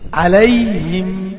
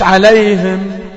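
First: The h is followed by an i vowel. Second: The h is not followed by an i vowel. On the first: The speaker calls it right. "اكسر الهاء لتحت" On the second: The speaker calls it wrong. "مش عليهم"

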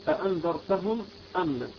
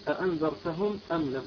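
The two takes are said the same way.

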